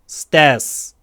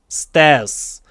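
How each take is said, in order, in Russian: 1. Финальный звук S сильный и твёрдый. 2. Финальный звук S сильный и твёрдый.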